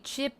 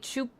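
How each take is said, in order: First: The vowel is a clear short 'i' sound. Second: The vowel is shifted toward an 'oo' sound. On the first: This is how Australians say it. "We say chip" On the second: This is how New Zealanders say it. "they would say choop"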